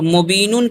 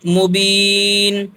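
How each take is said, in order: First: The word ends with an added 'un' syllable. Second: The word ends cleanly on a plain 'n'. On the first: The speaker calls it wrong. "मुबीनुन के बजाय" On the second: The speaker calls it right. "क्या पढ़ेंगे मुबीन"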